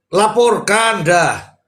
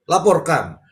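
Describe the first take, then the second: First: Laporkan drawn out slowly and higher, hammered home; slow down and lean on laporkan; emphatic command. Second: Said in the usual way. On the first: Shown as a demonstration. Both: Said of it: "repeated call to report".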